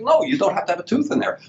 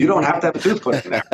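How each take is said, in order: First: Much higher, insistent on No; high-pitched, insistent retold reply; emphatic reassurance. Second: Laughing through the line, a bit faster; amused, quick reassurance. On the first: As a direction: push the voice up high on No, you don't have to. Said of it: "I'm like". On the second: Real, not acted. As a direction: chuckle it out while reassuring. Reassuring patient, listener laughs.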